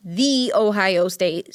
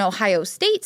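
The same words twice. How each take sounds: First: "the" said as a long, separate "thee"; proud, deliberate emphasis on "the"; stress on "the". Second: Said in the usual way. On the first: Real, not acted. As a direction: draw out "the" slowly before "Ohio State". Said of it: "sorry, I have to say that".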